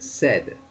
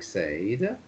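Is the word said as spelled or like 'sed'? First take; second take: like sed; as spelled. First: The word is said as if spelled 'sed'. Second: The word is said the way it is spelled. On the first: The speaker calls it right. "it's pronounced said ... as though it was written S E D" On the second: The speaker calls it wrong. "it looks like Said, the way it's written"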